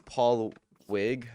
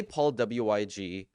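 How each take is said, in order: First: "Paul Wig" slowly, Wig as one syllable; Wig as a word. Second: "W I G" read out letter by letter; spelled-out letters. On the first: Shown as a demonstration. Streamer tells chat how the username is pronounced, Wig as one word. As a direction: say "Wig" as a single word, not letters. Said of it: "it's not an acronym". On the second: Retold or imitated. Streamer quotes how people misread the username, "W I G" spelled out. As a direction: say "W I G" as an acronym, three letter names. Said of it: "a lot of people say".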